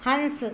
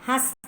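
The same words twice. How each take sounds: First: हंस with a nasal before the s; हंस pronounced carefully as "hans"; correct form. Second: हंस said without the nasal, as "has"; हंस misspoken as a plain "has"; incorrect form. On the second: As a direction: drop the nasal sound from हंस. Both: Shown as a demonstration. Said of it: "तो इसका शुद्ध रूप होगा".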